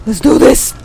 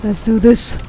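First: "Let's do this" louder, with a rise on "do"; pumped up. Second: Said in the usual way. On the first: Shown as a demonstration. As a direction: fire yourself up, punch "do".

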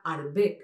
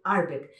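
First: ARDBEG stressed on the last syllable, "ard-BEG"; final stress. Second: ARDBEG stressed on the first syllable, "ARD-beg"; wrong first-syllable stress. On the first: Shown as a demonstration. Correcting a common error, ARDBEG as "ard-BEG". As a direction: put the weight on BEG in ARDBEG. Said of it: "que en realidad son agudas". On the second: Retold or imitated. Showing the usual mistake, ARDBEG as "ARD-beg". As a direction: put the weight on ARD in ARDBEG. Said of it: "que solemos decir".

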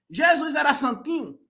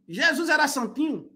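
No difference in how they are said.

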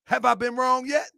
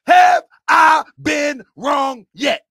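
First: High pitch, moderate volume, rising end; high-pitched rhetorical question; raised questioning. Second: Slow, high shout, word by word; loud, drawn-out challenge; yelling. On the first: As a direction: ask it pointedly without shouting. Repeats the challenge less forcefully. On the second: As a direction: hammer each word out at full volume. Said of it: "am I yelling too much?". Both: Real, not acted.

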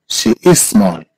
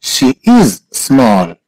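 First: Said in the usual way. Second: Very slow, word by word; slow model. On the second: Shown as a demonstration. Teacher repeats "she is small" for a student, very slowly. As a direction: stretch "is", pause, then "small".

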